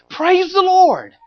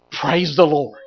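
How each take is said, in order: First: High, slow, stretched-out exultant praise; ecstatic praise. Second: Said in the usual way. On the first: Acted. Peter overjoyed at the huge catch, drawn-out high exultant praise. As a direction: cry it out in triumph.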